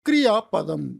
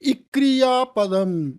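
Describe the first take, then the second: First: The word starts directly with the consonant cluster kr. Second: An extra vowel sound comes before the initial kr. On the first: The speaker calls it right. "அப்படி சொல்லணும்" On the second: The speaker calls it wrong. "அப்படி சொல்லக்கூடாது"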